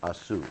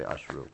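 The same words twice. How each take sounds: First: "Asu" said as ah-soo, no r; wrong Hindi-style form. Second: "Ashru" with a clear shr cluster, slightly lower; "Ashru" said carefully as ahsh-roo; correct Sanskrit form. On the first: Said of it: "So you say". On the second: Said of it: "and we say". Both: Shown as a demonstration.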